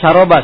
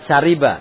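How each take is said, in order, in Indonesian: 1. Vokal tengahnya bunyi a. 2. Vokal tengahnya bunyi i. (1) "Bukan syaroba sebenarnya" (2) "Syariba, iya"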